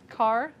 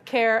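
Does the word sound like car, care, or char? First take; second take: car; care. First: It is said like the word car. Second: It is said like the word care. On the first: "the correct way" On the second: "I say care because it's short for character"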